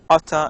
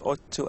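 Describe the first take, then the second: First: The words are blended into one reduced word. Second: Both words are said fully and separately. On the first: "as Ata in informal speech" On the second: "pronounce Otto"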